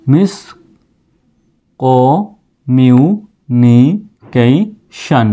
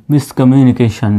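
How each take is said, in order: First: communication broken into slow separate syllables; teacher slowly building up communication. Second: miscommunication said as one smooth word, a bit slow; teacher putting the full word miscommunication together; whole word blended. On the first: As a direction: sound out communication piece by piece. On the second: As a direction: join it all into miscommunication. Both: Shown as a demonstration. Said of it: "সম্পূর্ণ উচ্চারণটা এরকম আসতেছে".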